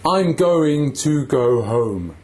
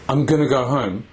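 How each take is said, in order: First: The word 'to' has a full vowel. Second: The word 'to' has a reduced vowel. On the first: "when I make the vowel sounds on home and to, my lips move a lot" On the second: "if I use the weak form"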